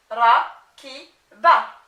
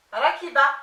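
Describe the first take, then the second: First: Rakiba in slow, loud, separate syllables; loud, segmented "rakiba" for a learner. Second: Said in the usual way. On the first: Shown as a demonstration. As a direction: sound out "rakiba" with gaps between each syllable. Teacher assembles word from spelled syllables.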